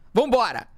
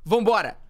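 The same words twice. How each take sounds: The two takes are said the same way.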